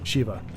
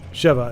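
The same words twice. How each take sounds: First: The first vowel is a long e. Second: The first vowel is a short e. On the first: The speaker calls it wrong. "instead of" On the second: The speaker calls it right. "the short e"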